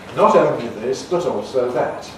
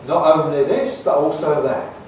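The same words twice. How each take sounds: First: The T sounds are crisp voiceless tongue-tip stops. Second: The T sounds are replaced by glottal stops. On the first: "like in my careful speech, those T sounds are voiceless alveolar plosives" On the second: "we can make it glottal. And that gives us the, the, gives us the London style"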